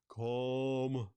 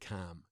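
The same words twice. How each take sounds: First: The word imitates another region's accent. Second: The word is said in the speaker's usual accent. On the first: "some parts of the world... Like you say, calm" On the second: "you don't say it calm"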